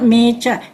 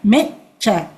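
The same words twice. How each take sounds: First: The E vowel is drawn out long. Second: The E vowel is kept short. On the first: The speaker calls it wrong. "Not mecha" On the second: The speaker calls it right. "so it becomes short"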